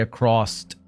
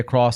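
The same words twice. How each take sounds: First: The word ends with an added extra sound. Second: The word ends plainly with an s sound. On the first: The speaker calls it wrong. "I always add extra letters to the end of some words" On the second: The speaker calls it right. "I don't say across"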